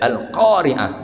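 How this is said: The consonant after 'al' is a deep Q. The speaker calls it right. "bacalah qaf dengan huruf qaf"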